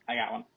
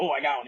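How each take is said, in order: First: Very soft, deadpan "I got one"; calm, quiet. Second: Lightly excited "Oh, I got one"; a hint of eager surprise on "Oh"; mock excited. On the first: Retold or imitated. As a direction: drop the voice right down, no fuss at all. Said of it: "He was like". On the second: Shown as a demonstration. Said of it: "He wasn't like".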